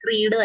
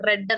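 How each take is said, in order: First: The word has a long 'ee' vowel. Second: The word has a short 'e' vowel. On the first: It is the present tense. "റീഡിന്റെ past tense റീഡ് തന്നെയാണ്" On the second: It is the past tense. "പ്രൊനൗൺസിയേഷൻ different ആണ്. റെഡ് എന്ന് വരും"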